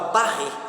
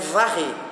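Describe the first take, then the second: First: The word begins with a B sound. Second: The word begins with a V sound. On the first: The speaker calls it wrong. "falava barrer" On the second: The speaker calls it right. "a palavra certa que é varrer"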